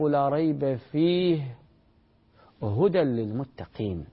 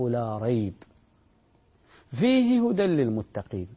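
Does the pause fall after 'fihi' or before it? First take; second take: after; before. First: The pause comes after the word 'fihi'. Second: The pause comes before the word 'fihi'. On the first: The whole book is guidance for the pious. "تقف عند قوله لا ريب فيه وتبدأ هدى" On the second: Guidance for the pious is found within the book. "هنا قال فيه هدى للمتقين"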